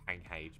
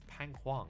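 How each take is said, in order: First: The name ends with a short 'H' sound. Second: The name ends with a full 'Huang' syllable. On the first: This is what the player is actually called. "I think it's actually called like Pang H" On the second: This is how the announcer said it. "that's how the um the person who was like announcing the players pronounce it"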